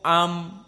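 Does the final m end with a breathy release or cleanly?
clean. The final m ends with no breath released. The speaker calls it right. "dibaca ma mimu am"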